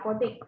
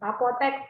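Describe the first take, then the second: First: The last syllable has the vowel i. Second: The last syllable has the vowel e. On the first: This is the nonstandard form. The speaker calls it wrong. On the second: This is the standard form. The speaker calls it right.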